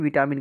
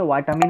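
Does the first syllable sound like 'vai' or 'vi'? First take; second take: vi; vai. First: The first syllable sounds like a short 'vi'. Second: The first syllable sounds like 'vai' in vital. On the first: This is the Hindi pronunciation. "Hindi में विटामिन कहते हैं" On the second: This is the English pronunciation. "English में वाइटामिन कहते हैं"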